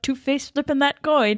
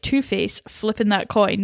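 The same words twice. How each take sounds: First: There is no pause after Two-Face. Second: There is a pause after Two-Face. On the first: Two-Face is the one flipping the coin. The speaker calls it wrong. "which is what I just said there" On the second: Hornsby is the one flipping the coin. The speaker calls it right. "I should have read that differently"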